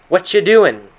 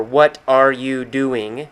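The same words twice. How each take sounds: First: "What you doing" run together as "whatcha doin'", higher and louder; reduced whatcha. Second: "What are you doing" slowly, each word separate and complete; full form. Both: Shown as a demonstration. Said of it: "it's a short phrase for".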